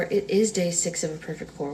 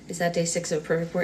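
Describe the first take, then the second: First: Confirming, with weight on "is"; stress on IS. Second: Said in the usual way. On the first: Real, not acted. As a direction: lean on "is" to confirm it. Answers own question with confirmation.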